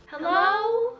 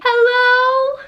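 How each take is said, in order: First: High, small, pitiful hello; pathetic helpless call. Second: Loud high call for help; calling out hello. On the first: Calling out alone in the dark store, pitiful and helpless. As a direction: sound lost and helpless in the dark. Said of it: "most pathetic and helpless voice". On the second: Dreaming girl calls out for help in her room, loud and high. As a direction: shout it out into the dark. Physically saying. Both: Retold or imitated.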